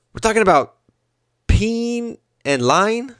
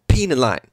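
First: A light Iverson, stretching "lying" up into a question; Allen Iverson impression. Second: Flat falling repeat, close to his own voice; a hint of Iverson, "Peeing" said flatly and dropping at the end; dry deadpan restatement, barely put on; Allen Iverson impression. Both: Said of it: "my impersonation of Allen Iverson".

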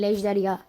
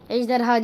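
First: "ejderha" said as ejderya, y replacing h; "ejderha" with a gliding y in place of the h; altered pronunciation. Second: "Ejderha" said with a clear h before the final a; "Ejderha" with an audible h, as the form being rejected; standard pronunciation. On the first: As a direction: say "ejderha" ending in -ya. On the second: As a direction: say "Ejderha" ending in -ha. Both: Shown as a demonstration. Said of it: "Ejderha değil, ejderha".

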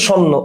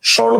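First: স্বর্ণ with the r turned into n; assimilated pronunciation. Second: Said in the usual way. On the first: Shown as a demonstration. Teacher showing students the changed word, assimilated pronunciation. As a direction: say স্বর্ণ as "shonno", doubled n. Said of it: "পরে হয়ে গেছে ন আর ন". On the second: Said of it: "এটাকে ভাঙলে পাচ্ছি এই যে".

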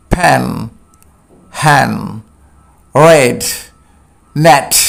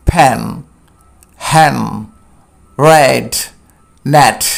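First: ফ্যান, হ্যান, রেড, নেট repeated with an e like এ; হ্যান said for hen, with an e like এ; short e vowel. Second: ফ্যান, হ্যান, রেড, নেট with an e like এ; হ্যান said for hen, with an e like এ; short e vowel. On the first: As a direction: say each word again, spaced out. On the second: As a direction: model each word, spaced out. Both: Shown as a demonstration. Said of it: "তাহলে এটা হবে".

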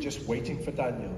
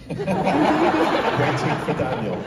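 First: Said in the usual way. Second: Slow, loud, laughing through it; laughing title. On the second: Shown as a demonstration. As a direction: savour the title while laughing. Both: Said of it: "That's what I'm gonna call my memoir".

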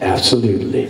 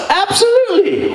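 First: Low absolutely. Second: High bright absolutely; high eager absolutely; eager yes. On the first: Low reply. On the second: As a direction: chirp it up high. Dylan high agreement. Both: Retold or imitated.

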